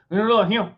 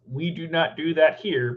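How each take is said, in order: First: Higher, slurred Southern mumble; Memphis Cajun Southern accent. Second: Said in the usual way. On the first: Shown as a demonstration. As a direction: swallow the consonants in thick Memphis Southern. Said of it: "but it's".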